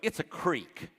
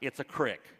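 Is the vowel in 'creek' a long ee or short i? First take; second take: long ee; short i. First: Creek is said with a long ee vowel. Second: Creek is said with a short i vowel.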